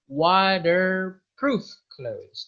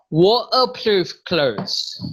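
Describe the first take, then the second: First: The t in water sounds like a d. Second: The t in water is dropped entirely. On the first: "if it is American, we do not say T, we say D" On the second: "more Scotland... itu nggak pakai T"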